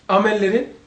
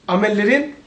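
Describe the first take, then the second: Both takes have the same delivery.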